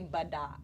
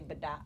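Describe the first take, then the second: First: A schwa vowel is pronounced within the word. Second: The schwa vowel is dropped from the word. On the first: The speaker calls it wrong. "They don't pronounce that schwa. They wouldn't say" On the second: The speaker calls it right. "They would say bada, where you're like eliminating that"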